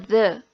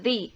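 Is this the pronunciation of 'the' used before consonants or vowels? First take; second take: consonants; vowels. First: It is the form used before consonant sounds. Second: It is the form used before vowel sounds. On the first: "Dibaca ketika benda yang mengikutinya berbunyi konsonan di awal kata" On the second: "Dibaca ketika kata benda yang mengikutinya berbunyi vokal di awal kata"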